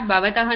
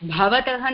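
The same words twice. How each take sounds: First: The first b sound has no breath after it. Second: The first b sound has breath after it. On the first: The speaker calls it wrong. "It is not Bhavatah Nama Kim" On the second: The speaker calls it right. "Here again the Ba is aspirated"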